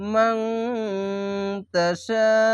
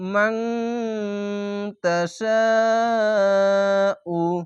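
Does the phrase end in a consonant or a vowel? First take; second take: consonant; vowel. First: The phrase ends on the consonant, vowel dropped. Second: The phrase ends with a final 'u' vowel. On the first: The reader pauses at this point. "সা শেষ অক্ষর সাকিন দিয়ে মিলিয়ে থেমে গেলাম" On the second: The reading continues without a stop. "যেরকম শব্দ সেরকম ভাবেই পড়বেন"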